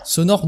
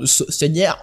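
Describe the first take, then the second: First: Said in the usual way. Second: "sonore" slipping towards a Spanish "señor"; accidental Spanish accent. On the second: Real, not acted. Host trips on the sound-design poll question, accidental Spanish accent. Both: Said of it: "mon faux accent espagnol".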